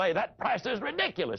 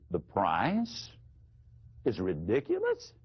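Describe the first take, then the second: First: The voice falls at the end. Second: The voice rises at the end.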